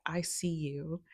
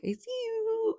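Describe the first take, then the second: First: Said in the usual way. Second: Much higher surprised squeak of "I see you"; shocked, high-pitched "I see you"; startled squeal. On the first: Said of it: "it was like". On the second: Retold or imitated. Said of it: "And at first I was like".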